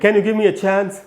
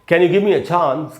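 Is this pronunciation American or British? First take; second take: American; British. First: Said in an American English accent. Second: Said in a British English accent. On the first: "अगर आपको American बोलना है तो आपको बोलना चाहिए" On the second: "की जगह पर"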